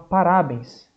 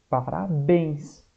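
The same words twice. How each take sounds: First: The stress is on the middle syllable. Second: The stress is on the last syllable. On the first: The speaker calls it wrong. "tem uns que vão falar, professor, é o rá" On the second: The speaker calls it right. "A sílaba mais forte é o bens"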